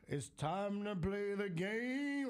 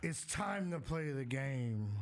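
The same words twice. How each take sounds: First: High, slow drawn-out entrance call; Triple H entrance impression. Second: Triple H entrance impression. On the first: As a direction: stretch it out like a wrestling entrance theme. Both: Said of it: "I got the old school Triple H".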